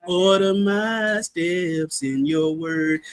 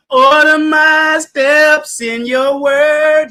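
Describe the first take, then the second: First: Hum-sing it softly, stretched out; crooned song line. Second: Slow, louder, drawn-out title; the title "Order My Steps in Your Word" called out high and slow; song title. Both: Shown as a demonstration. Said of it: "They got a song called".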